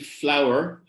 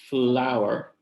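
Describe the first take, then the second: First: The opening cluster is said without an added vowel. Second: A small vowel is inserted inside the opening cluster.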